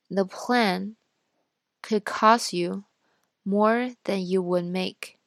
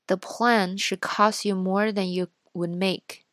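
First: It is read at a slower speaking speed. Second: It is read at a normal speaking speed. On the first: "然后再读一遍慢一点的" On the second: "先读一遍正常语速的"

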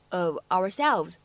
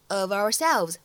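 First: The two words are said separately, unlinked. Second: The two words are linked smoothly together. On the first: "如果你不连读也是完全可以的，我们就直接读成" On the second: "你可以自然的带一个连读，连读之后呢可以读成"

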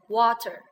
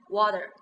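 First: The middle t is a clear t sound. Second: The middle t sounds like a soft d. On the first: This is the British pronunciation. "英式发音呢是water" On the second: This is the American pronunciation. "但是美式发音呢是water"

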